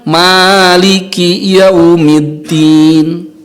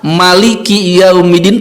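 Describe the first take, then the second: First: The first vowel of Maliki is drawn out long. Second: The first vowel of Maliki is kept short. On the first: "bisa memakai alif sehingga dibaca panjang mad" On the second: "Bisa juga dibaca pendek, tidak salah"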